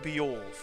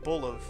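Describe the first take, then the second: First: The name ends with a 'wolf' sound. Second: The name ends with a 'luv' sound. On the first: "it looks like Beowulf" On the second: "I pronounced it like Luv, like Bolov"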